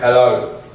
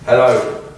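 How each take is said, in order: First: The voice is produced from the chest. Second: The voice is produced from the throat.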